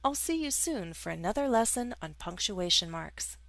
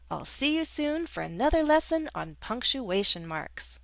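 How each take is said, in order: First: It is said in a neutral tone. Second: It is said with stronger emotion.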